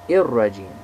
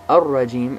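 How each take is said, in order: First: The word begins with an 'i' vowel. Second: The word begins with an 'a' vowel.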